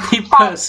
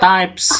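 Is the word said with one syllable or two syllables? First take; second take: two; one. First: It is said as two syllables, like tee-pes. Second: It is said as one syllable, rhyming with pipes. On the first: The speaker calls it wrong. "Jangan tipes" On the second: The speaker calls it right.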